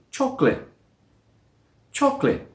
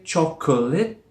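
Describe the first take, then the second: First: "Chocolate" as choc-lit; two-syllable chocolate. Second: "chocolate" as choc-uh-lit; three-syllable chocolate. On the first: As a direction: say "Chocolate" without the middle schwa. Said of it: "only say it with two". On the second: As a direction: voice the middle uh of "chocolate". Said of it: "with three syllables". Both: Shown as a demonstration.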